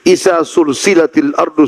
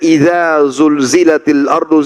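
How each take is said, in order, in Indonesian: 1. Konsonannya tak bersuara, bunyi s yang mendesis. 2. Konsonannya bersuara, bunyi z yang berdengung.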